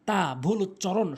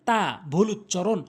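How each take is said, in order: Both takes have the same delivery.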